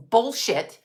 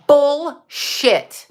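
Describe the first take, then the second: First: Said in the usual way. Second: Louder bullshit. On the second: Real, not acted. Repeats it louder, higher.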